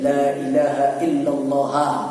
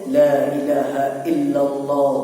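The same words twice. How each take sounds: First: The last word ends with a final a vowel. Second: The last word ends with a final u vowel. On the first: "mansub fathah ha" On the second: "setelah illa boleh dhammah"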